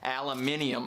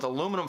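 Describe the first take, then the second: First: The word is said with five syllables. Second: The word is said with four syllables.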